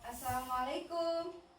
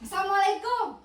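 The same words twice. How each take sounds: First: The greeting is said gently and politely. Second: The greeting is said harshly and demandingly. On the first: The visitor is respectfully asking to come in. The speaker calls it right. "dengan ketukan yang sopan seperti ini ya" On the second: The visitor sounds like someone collecting a debt. The speaker calls it wrong. "bukan begini ya ... kayak nagih hutang"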